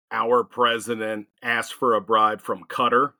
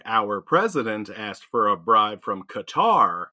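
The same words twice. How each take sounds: First: Qatar said "KUT-er" like a person's name; Qatar as cutter. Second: Qatar said "kuh-TAR", a bit slow. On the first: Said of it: "it sounds more like a person". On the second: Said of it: "Oh, the country". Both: Shown as a demonstration.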